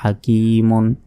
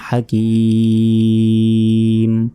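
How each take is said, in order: First: The word ends with a final -un syllable. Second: The word stops on a bare final consonant. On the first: The reading continues without stopping. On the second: The reader pauses at this word.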